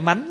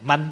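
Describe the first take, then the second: First: The word is said with a rising tone. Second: The word is said with a level tone. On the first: The speaker calls it wrong. "không phải mánh" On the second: The speaker calls it right. "manh chứ không phải mánh nha"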